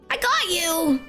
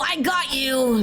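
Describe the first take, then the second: First: It is said in a very high-pitched voice. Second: It is said in a closer Ash Ketchum voice.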